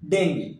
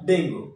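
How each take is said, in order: First: The word ends with an 'ee' sound. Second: The word ends with an 'oo' sound. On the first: The speaker calls it right. "কিন্তু এর উচ্চারণ হবে ডেঙ্গি" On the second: The speaker calls it wrong. "not ডেঙ্গু"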